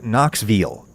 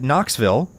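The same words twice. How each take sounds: First: "Knoxville" in a Tennessee accent, ending "vul"; local Tennessee pronunciation. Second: "Knoxville" with a clear short-I "vill" ending; own pronunciation. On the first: Host imitating people born here, "Knoxville" in a local Tennessee accent. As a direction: say "Knoxville" like a Knoxville native. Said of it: "people who were born here". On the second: Host giving his own pronunciation, "Knoxville" ending in a plain "vill". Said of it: "I still pronounce it". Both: Shown as a demonstration.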